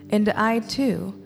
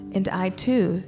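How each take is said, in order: Both takes have the same delivery.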